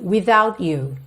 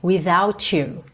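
First: The t is finished clearly before you starts. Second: The t blends smoothly into the following you. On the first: "dando esse acabamento e seguindo então para o you" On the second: "essas duas palavras se juntam como without you"

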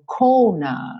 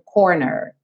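First: British, r dropped, vowel lengthened. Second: American, the r is clearly pronounced.

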